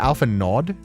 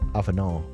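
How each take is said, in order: First: The final D sound is clearly pronounced. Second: The final D sound is left silent. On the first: "you pronounce the D in Alpha Nod?" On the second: "like French kind of pronunciation"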